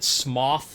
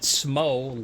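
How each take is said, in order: First: The name rhymes with cough. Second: The name rhymes with dough. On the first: "like a cough" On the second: "like dough"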